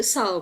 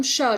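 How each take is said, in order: First: "sờ" with a plain Vietnamese s; "sờ" with a hissed s instead of sh; Vietnamese s sound. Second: "sờ" said as English "shuh"; "sờ" with a hushing English sh; English sh sound. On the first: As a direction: say "sờ" as "suh", tongue not raised. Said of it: "chỉ ra chữ sờ của tiếng Việt". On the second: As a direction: raise the tongue to turn "sờ" into sh. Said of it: "hơi nâng cái lưỡi của em lên". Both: Shown as a demonstration.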